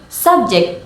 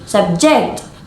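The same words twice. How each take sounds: First: The stress is on the first syllable. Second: The stress is on the second syllable. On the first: The word is used as a noun. "with stress on the first syllable is a noun" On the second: The word is used as a verb. "with stress on the second syllable is a verb"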